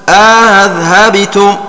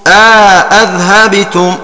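First: Second glottal stop softened, vowel inserted between. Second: Second glottal stop full, vowel inserted between. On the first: "التسهيل ... مع الإدخال" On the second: "والتحقيق ... مع الإدخال"

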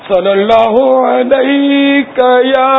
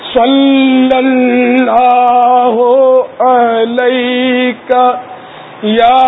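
First: The L sound is short and single. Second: The L sound is held long and doubled. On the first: The speaker calls it wrong. "اس کو غلط ہے, طرز صحیح ہے تلفظ غلط ہے" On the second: The speaker calls it right. "لام پر تشدید ہے"

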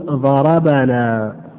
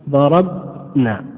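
First: The consonant before -na carries a short a vowel. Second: The consonant before -na has no vowel at all. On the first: The hitting was done to us. "نقول ضربنا، يعني الضرب الآن وقع علينا" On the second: We did the hitting. "إن أردنا ناء الفاعلين ماذا نقول؟"

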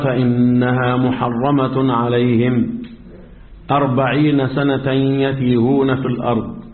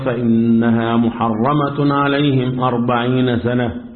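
First: There is a pause after alayhim, before forty. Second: There is a pause after sana, before yatihun. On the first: The forty years are the length of the wandering. "هفهم انا من الوقف بتاعك ايه؟ ان انت بترجح ان 40 سنة مدة ايه؟ التيه" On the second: The forty years are the length of the prohibition. "قال فإنها محرمة عليهم 40 سنة، وبعدين بدأ قال يتيهون في الأرض"

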